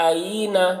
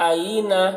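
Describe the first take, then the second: Both takes have the same delivery.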